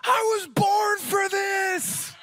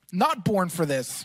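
First: Put-on high, slow, triumphant kid's battle cry; excited little boy. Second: Lower, dry, defeated mutter; the joke undone, a cold man's grumble; deflated. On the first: Son running into freezing water, high triumphant shout. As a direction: shout it like a five-year-old charging into the sea. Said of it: "and he goes". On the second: Retold or imitated. Dad in the freezing water, lower deflated reply. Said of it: "I was walking in the freezing water going".

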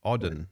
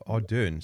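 First: "Ardern" said as AH-dun with no r; retry "Ardern" as AH-dun, r dropped, weak second syllable; self-corrected "Ardern", non-rhotic and clipped; correcting a name. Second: "Ardern" said as AR-doon with a rolled-in r; first unsure try at "Ardern", r pronounced; checking a name. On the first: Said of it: "is my emphasis on the wrong syllable?". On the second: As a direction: try "Ardern" as AR-dern, r sounded, second syllable like "doon". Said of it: "did I say her name wrong?". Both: Shown as a demonstration.

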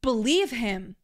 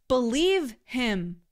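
First: Said in the usual way. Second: Believe him said slowly, each word weighed; slow it right down and press on Believe; slow emphatic repeat. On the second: Shown as a demonstration.

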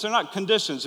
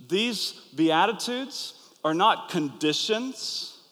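First: "not" hit higher and louder; "not" stressed hard, quick and firm. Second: These Beatitudes are not conditions, each word slow with "not" leaned on; slow, deliberate stress on "not"; slow emphasis on not. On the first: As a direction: punch "not" to drive the point home. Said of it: "You understand the difference?". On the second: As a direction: drag it out and lean on "not". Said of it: "they're promises". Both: Shown as a demonstration.

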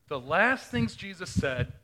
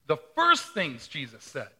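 First: "last" leaned on and drawn out, slow; "last" stressed with a falling tune. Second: "first" stressed, louder, falling; "first" punched, answering "last". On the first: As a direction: punch "last" to set it against "first". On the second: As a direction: hit "first" as the contrast to "last". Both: Shown as a demonstration.

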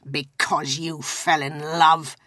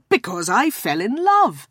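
First: Slow, scornful growl. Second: Said in the usual way. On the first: A narrator's reading. Scrooge mocking his nephew's love match, growling. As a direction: drag the words out in contempt. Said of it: "growled Scrooge".

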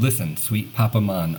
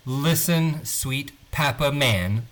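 First: Accidental Jamaican "mahn" on Man; hint of Jamaican accent in "Papa Man". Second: Man with a flat "a" as in cat, slowly; over-correct "Papa Man" with flat "a" vowels; slow, careful "Man", never "mahn"; corrected pronunciation. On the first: Real, not acted. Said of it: "a Jamaican accent there". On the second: Shown as a demonstration. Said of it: "It says man".

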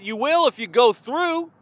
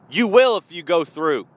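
First: "through" climbs, left hanging; rising emphasis. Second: "through" comes down firmly, settled; falling emphasis. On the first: Same line repeated with contrasting tune. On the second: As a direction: drop low and final on THROUGH. Repeat lands as a settled answer. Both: Real, not acted.

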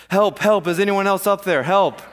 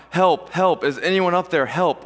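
First: Loud, higher acted yell for rescue; yelled cry for help. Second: Mild mock call for help, pitched higher; acted cry for help. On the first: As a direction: holler for help at anyone above. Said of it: "Finally, Jack yelled". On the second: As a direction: call out for rescue without fully shouting. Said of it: "So he starts crying out".

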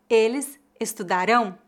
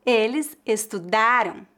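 First: Estudarão stressed on the last syllable "RÃO"; estudarão as es-tu-da-RÃO, careful model; final stress. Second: Estudaram stressed on "DA", weak nasal ending; penultimate stress. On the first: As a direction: land firmly on the nasal ending of estudarão. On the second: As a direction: hit the DA in estudaram, let "ram" drop. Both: Shown as a demonstration. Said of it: "a diferença de pronúncia dos verbos".

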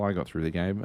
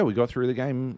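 First: "I" picked out as a correction; stress on I. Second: Said in the usual way. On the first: Real, not acted. Storyteller admits only he escaped, stress on "I". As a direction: lean on "I", rest of it relaxed.

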